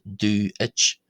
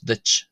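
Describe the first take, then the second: First: Two separate vowel sounds are pronounced. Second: Only one vowel sound is pronounced. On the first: The speaker calls it wrong. "Do I pronounce ditch as do itch? No" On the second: The speaker calls it right. "it's really just the I that's pronounced in this case"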